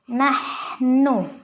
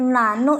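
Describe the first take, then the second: First: A clear h sound is heard before the n. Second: No h sound is heard before the n. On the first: The speaker calls it right. "ha ha nahnu" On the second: The speaker calls it wrong. "bukan nanu"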